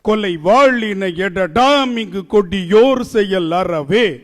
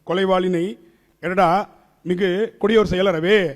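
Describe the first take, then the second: First: It is recited with a strong, regular rhythm. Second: It is recited flatly, without the regular rhythm. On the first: The speaker calls it right. "இதான் சந்தம்" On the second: The speaker calls it wrong. "இப்படி படிச்சோம்னா பாரதிதாசன் திரும்பி பிறந்து வந்து உதப்பார்"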